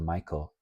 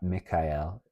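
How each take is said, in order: First: The name is said the common English way. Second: The name is said the original, older way.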